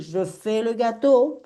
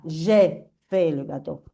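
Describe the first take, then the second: First: "je" with a rounded, closed vowel before "fais le gâteau". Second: "je" as a spread "jé", phrase taken slowly; smiled JE. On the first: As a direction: purse the lips on "je", pitched up. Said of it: "tenéis el je cerradito". («je» cerradito, con la boca cerrada) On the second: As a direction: slowly model "je" as "jé" before "fais le gâteau". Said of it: "con el je sonrisa". («je» como «jé», con sonrisa y despacio) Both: Shown as a demonstration.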